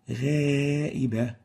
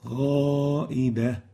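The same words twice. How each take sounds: First: The first long vowel is light and thin. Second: The first long vowel is heavy and dark. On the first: The speaker calls it wrong. "we make tarqiq in the place where we should velarize" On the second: The speaker calls it right. "where we're supposed to say"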